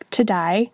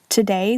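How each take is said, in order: First: The vowel is said the Australian way. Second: The vowel is said in a standard way.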